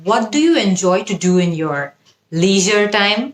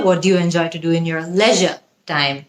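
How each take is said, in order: First: "leisure" as LEE-zher, sentence taken slowly; slow model question, long EE in "leisure"; American pronunciation. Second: "leisure" as LEH-zhuh, sentence taken slowly; slow model question, short E in "leisure"; British pronunciation. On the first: Teacher models a familiar question, "leisure" as American LEE-zher. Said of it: "American অ্যাকসেন্টটা". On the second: Teacher repeats the question British-style, "leisure" as LEH-zhuh. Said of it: "British অ্যাকসেন্টের". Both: Shown as a demonstration.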